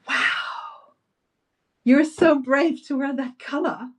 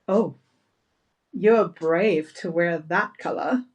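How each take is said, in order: First: It sounds enthusiastic and admiring. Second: It sounds critical and doubtful.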